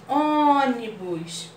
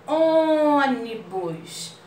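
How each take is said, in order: First: Ônibus slowly, ô kept closed; closed vowel demo. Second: Ônibus very slow, closed ô; closed vowel demo. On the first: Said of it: "bem fechadinho". (Ônibus devagar, ô bem fechadinho) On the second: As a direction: stretch Ônibus with a tight closed ô. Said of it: "Olha só como a gente fala assim". (Ônibus bem devagar, com ô fechado) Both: Shown as a demonstration.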